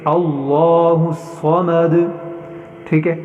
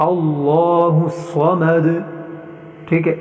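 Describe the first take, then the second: The two takes are said the same way.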